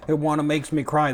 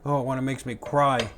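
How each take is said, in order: First: Mock emotional. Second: Said in the usual way. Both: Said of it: "I got so emotional I couldn't talk".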